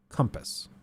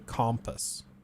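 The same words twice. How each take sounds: First: The first vowel sounds like 'uh', as in 'come'. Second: The first vowel sounds like 'o', as in 'comma'. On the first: "Do you guys say it like that" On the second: "Because it is technically an O"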